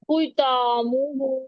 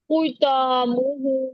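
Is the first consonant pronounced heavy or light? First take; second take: heavy; heavy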